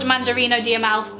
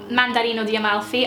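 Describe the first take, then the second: First: Said in the usual way. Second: Light Italian accent. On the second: Shown as a demonstration. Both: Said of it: "I have to say it in my Italian accent".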